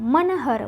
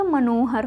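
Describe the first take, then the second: First: मनहर with short a after n; the mistaken na in मनहर; wrong form मनहर. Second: मनोहर with o after n; long no inside मनोहर; correct form मनोहर. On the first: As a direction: say मनहर as ma-na-har. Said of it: "मनहर नहीं होता". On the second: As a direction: say मनोहर as ma-no-har. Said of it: "मनोहर होता है". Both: Shown as a demonstration.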